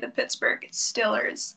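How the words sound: Steelers has a short 'i' vowel, as in still. "You would say the Pittsburgh Stillers"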